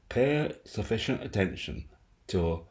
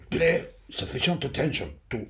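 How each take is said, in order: First: Spoken in the speaker's own natural voice. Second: Spoken in an imitated voice of another man.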